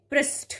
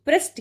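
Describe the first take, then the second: First: पृष्ठ ending in a puffed ṭh; correct aspirated ending. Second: First पृष्ठ ends in a dry ṭ; wrong unaspirated ending. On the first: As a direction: say पृष्ठ as prasṭh, with breath. (पृष्ठ के अंत में ठ की ध्वनि) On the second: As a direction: say पृष्ठ as prasṭ, no breath. (पृष्ठ के अंत में ट की ध्वनि) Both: Shown as a demonstration. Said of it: "की जगह".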